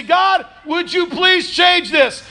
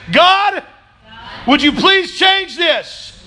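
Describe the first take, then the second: First: Loud pleading prayer. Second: High, slow, called-out plea; loud pleading prayer. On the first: Pretend. Preacher voicing a congregant's prayer, loud slow plea. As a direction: cry it out high and slow, pleading. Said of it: "You look at it all and you say". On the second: Shown as a demonstration. Preacher leading the church in prayer, loud slow plea. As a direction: lead the room in a loud, slow cry to God. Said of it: "Just say".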